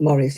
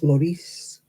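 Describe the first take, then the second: First: The name is said with English pronunciation. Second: The name is said with French pronunciation. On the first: The speaker calls it wrong. "it's not Maurice" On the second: The speaker calls it right. "it's Maurice"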